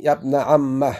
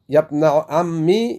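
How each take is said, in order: First: "عمه" ending in an open a on the doubled m; "عمه" ending on a short open a; fatha on the meem. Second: "عمي" ending in a short i on the doubled m, slowly; "عمي" with a clear i ending, not a long final ya; kasra on the meem. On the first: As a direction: say "يا ابن عمه" with the meem opened to a. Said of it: "أو فتحها". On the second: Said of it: "مع كسر الميم". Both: Shown as a demonstration.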